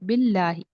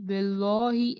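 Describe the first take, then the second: First: The L sound is thin and light. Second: The L sound is thick and heavy. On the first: The speaker calls it right. "इसको बारीक पढ़ना है" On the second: The speaker calls it wrong. "ऐसा नहीं पढ़ना"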